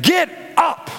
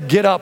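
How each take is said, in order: First: It is said forcefully, with exasperation. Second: It is said flatly, like plain reading.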